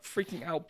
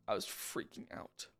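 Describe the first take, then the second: First: Said in the usual way. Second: Muttered low under the breath. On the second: Real, not acted. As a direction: drop low and mutter it to yourself. Repeating that he panicked.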